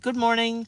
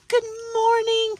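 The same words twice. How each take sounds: First: It is said quickly and plainly. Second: It is said in a gushing, overly friendly way.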